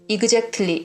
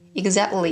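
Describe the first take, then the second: First: It is pronounced with a Korean-style accent. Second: It is pronounced like a native American speaker. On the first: The speaker calls it wrong. "이렇게 안 한단 말이에요" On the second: The speaker calls it right. "원어민들은 exact, exactly, exactly 이렇게 하거든요"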